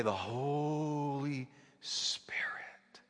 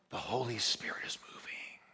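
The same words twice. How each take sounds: First: Breathy reverent whisper, drawn out slowly; imitating a hushed whisper. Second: Imitating a whisper. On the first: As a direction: whisper it like the preacher in awe. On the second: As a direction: hush it in awe. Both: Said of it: "she would say".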